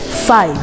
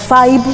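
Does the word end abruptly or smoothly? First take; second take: smoothly; abruptly. First: The word ends smoothly. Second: The word ends abruptly. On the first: The speaker calls it right. "su pronunciación es five" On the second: The speaker calls it wrong. "acabaría la palabra un poco brusco"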